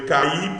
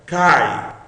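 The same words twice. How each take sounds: First: CAIR said as two syllables, ca-i; split diphthong. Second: CAI as one long gliding syllable; diphthong, one syllable. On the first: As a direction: break CAIR apart into ka and ee. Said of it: "você tava separando o ditongo". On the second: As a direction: glide CAI from ah to i without a break. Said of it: "É um ditongo, é uma sílaba só". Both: Shown as a demonstration.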